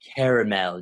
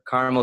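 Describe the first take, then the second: First: The word is said with three syllables. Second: The word is said with two syllables. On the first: It makes the candy sound more delectable. "if you're only going to use it in the commercial" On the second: It is an everyday mention of the flavor. "it's easier, it's quicker to say caramel swirl"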